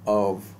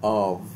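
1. स्वर एक छोटा, कमज़ोर schwa है। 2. स्वर एक पूरा, खुला ah है। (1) "जो वीक हैं ... शुआ ... अ" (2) "यूएस स्ट्रॉन्ग फोनिम्स ... आव"

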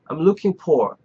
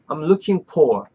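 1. 'for'의 f는 pop처럼 터져 나와요. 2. 'for'의 f는 pop처럼 터져 나와요.

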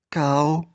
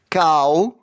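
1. Слово сказано ще тихіше. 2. Слово сказано голосно. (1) "тихіше" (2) "Голосно"

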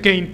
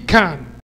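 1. El nombre suena como 'cane'. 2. El nombre suena como 'con'. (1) "según yo se pronuncia Kane" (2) "así le dice el anunciador"

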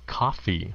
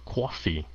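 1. Đoạn này được nói theo giọng General American. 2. Đoạn này được nói theo giọng New York. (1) "Sếp phát âm là coffee" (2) "họ là coffee ... có dài âm, nó nghe nó o vậy đó"

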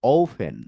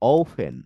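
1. মাঝের ব্যঞ্জনটি একটি aspirated p। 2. মাঝের ব্যঞ্জনটি একটি অ্যাসপিরেটেড p।

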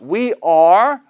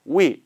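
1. 두 단어 모두 완전하게, 따로따로 발음돼요. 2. 'we'만 들리고 'are'는 사라져요. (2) "아니면 we 다 가능해요"

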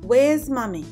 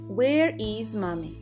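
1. Глагол сокращается до короткого звука s. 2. Глагол произносится полным словом.

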